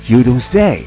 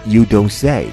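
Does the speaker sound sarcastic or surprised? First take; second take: surprised; sarcastic. First: It is said with genuine, surprised interest. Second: It is said with a dry, sarcastic tone. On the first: The speaker is amazed and asks if it's really true. "可以表示一种surprise" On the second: The speaker mocks someone for stating the obvious. "表示有点点的ironic 啊，就是讽刺的意思"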